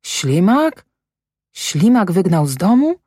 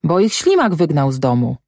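First: ŚLIMAK and DOMU rising into questions; incredulous echo question. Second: Said in the usual way. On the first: A narrator's reading. Mother repeats what she was told, disbelieving rising question. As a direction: echo it back, pitch climbing at the end of „domu”. She echoes the answer, stunned.

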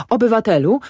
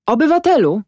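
First: Pleading. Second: High, loud call, falling at the end. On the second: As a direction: hail the peasant loudly. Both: A narrator's reading. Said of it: "zawołał Panicz do Ślimaka".

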